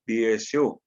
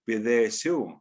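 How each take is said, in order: First: It has no consonant between 'Bi' and 'esu'. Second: It has a th sound between 'Bi' and 'esu'.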